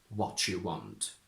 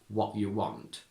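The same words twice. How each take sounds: First: The t and 'you' merge into a ch sound. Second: The t becomes a glottal stop before 'you'. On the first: It is the modern way of speaking. "to modern" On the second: It is the traditional way of speaking. "going from traditional"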